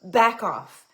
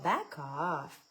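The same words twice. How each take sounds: First: It is said in a sharp, forceful tone. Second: It is said in a soft, relaxed tone. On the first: The speaker calls it right. "On fait comme « back off »" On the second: The speaker calls it wrong. "on dit jamais cette expression-là sur un ton euh, relax"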